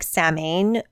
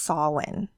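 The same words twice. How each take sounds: First: The word is read as its spelling suggests. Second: The word is said with its Gaelic pronunciation. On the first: The speaker calls it wrong. "it looks like Samhain, the way it's spelled" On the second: The speaker calls it right. "it is pronounced Samhain. That's the actual Gaelic Celtic pronunciation"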